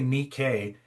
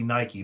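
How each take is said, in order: First: The name is given its Greek pronunciation. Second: The name is given its English brand pronunciation.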